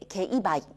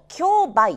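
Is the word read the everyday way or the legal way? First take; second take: legal; everyday. First: The word gets its legal reading, a different first syllable. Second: The word gets its everyday reading, as heard in news. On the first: This is the official reading as a legal term. "法律の世界ではですね、これ競売、競売というふうに言っていくんですね" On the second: This is the common reading used in general news. "ニュースなんか聞いてますと、競売という言い方をすることがありますね"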